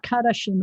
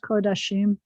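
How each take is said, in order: First: The first vowel sounds like a. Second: The first vowel sounds like o. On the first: The speaker calls it wrong. "It's not Kadashim" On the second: The speaker calls it right. "it's Kodashim"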